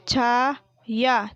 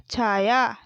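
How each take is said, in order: First: Chhaya split into long chhaa and yaa; slow Chhaya, syllables held apart; spelled out. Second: Said in the usual way. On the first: Shown as a demonstration. Teacher sounding out Chhaya for pupils, syllable by syllable. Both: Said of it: "मैंने इस तरीके से पढ़ा".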